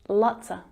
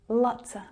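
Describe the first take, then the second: First: The word 'of' shrinks to a schwa. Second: The same.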